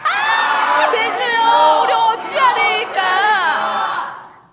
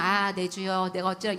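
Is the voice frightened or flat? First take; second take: frightened; flat. First: It is said in a frightened voice. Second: It is said plainly without feeling.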